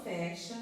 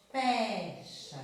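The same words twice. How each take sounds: First: Said in the usual way. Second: "Fecha" with a loud, long "Fe" and falling end; stress on FE. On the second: Shown as a demonstration. Teacher showing where the tonic is, stressed "Fecha". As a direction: lean hard on the first syllable of "Fecha". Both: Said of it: "sílaba tônica tá no".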